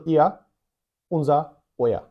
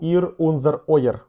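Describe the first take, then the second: First: The final r is softened into an a-like vowel. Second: The final r is sounded as a consonant. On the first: The speaker calls it right. "Я кажу ihr, unser, euer. Літера р на кінці слів зазвичай читається як а" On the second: The speaker calls it wrong. "я й не кажу ihr, unser, euer"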